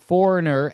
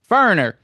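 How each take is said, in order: First: The word is said in full, every syllable kept. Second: The word is squeezed, with a syllable dropped. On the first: The speaker calls it right. "I'm going to try to pronounce it correctly now" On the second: The speaker calls it wrong. "where'd that syllable go? you lost a syllable"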